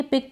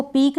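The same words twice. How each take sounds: First: पिक with a short "i"; short vowel demo. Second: पीक with a long "ee"; mispronunciation demo. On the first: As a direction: say पिक like English "pick". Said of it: "छोटी ई की मात्रा के रूप में". (पिक में छोटी इ की मात्रा) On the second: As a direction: say पीक like English "peak". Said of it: "इसको पीक नहीं पढ़ेंगे". (पीक में बड़ी ई की मात्रा) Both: Shown as a demonstration.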